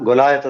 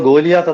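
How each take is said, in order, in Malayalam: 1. രണ്ടാമത്തെ അക്ഷരം 'lie' പോലെയാണ് കേൾക്കുന്നത്. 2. രണ്ടാമത്തെ അക്ഷരം 'lee' പോലെയാണ് കേൾക്കുന്നത്. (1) "യഥാർത്ഥ ഇംഗ്ലീഷ് ഉച്ചാരണം ഗൊലായത്ത് എന്നാണ്" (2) "നമ്മൾ ഗോലിയാത്ത് എന്നാണ് ഉച്ചരിക്കുന്നത്"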